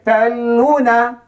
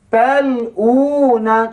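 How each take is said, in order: First: The 'lu' vowel is short. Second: The 'lu' vowel is drawn out long. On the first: The speaker calls it wrong. "Kalau kita baca taluna, salah ke betul?" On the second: The speaker calls it right. "Jadi yang betul macam mana?"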